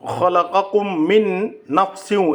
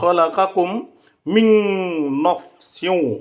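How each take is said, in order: First: The n sound is kept clear and separate. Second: The n merges nasally into the next sound. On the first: The speaker calls it wrong. "এরকম উচ্চারণ হবে না" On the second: The speaker calls it right. "উচ্চারণ করতে হবে ... ঈদগামে বিল গুন্না করতে হবে"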